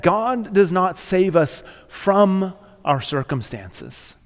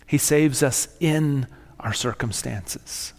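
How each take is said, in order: First: "from" drawn out, then a pause; stress on FROM. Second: "in" stretched out, slow line; slow down and lean on "in"; stress on IN. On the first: Preacher correcting the congregation's expectation, stress on "from". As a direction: lean long on the word "from". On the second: Preacher telling the congregation where God saves, stress on "in". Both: Real, not acted.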